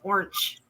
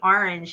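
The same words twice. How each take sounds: First: It is said in an Ohio accent. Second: It is said without an Ohio accent. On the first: Someone from Ohio says it this way. "He says orange" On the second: This is how the speaker says it. "he doesn't say orange"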